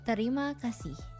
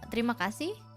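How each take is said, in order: First: It is said slowly. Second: It is said at normal speed.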